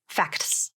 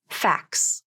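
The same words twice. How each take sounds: First: The T sound is clearly pronounced. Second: The T sound is dropped. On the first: The speaker calls it wrong. "The second way will contain the T in the pronunciation" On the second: The speaker calls it right. "The first way will use the rule of three, so no T sound"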